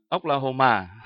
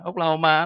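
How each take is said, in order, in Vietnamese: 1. Âm tiết cuối được phát với cao độ đi xuống. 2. Âm tiết cuối được phát với cao độ bằng phẳng. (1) "cái chữ Mỹ nó là có dấu huyền mà" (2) "là chất ma không à"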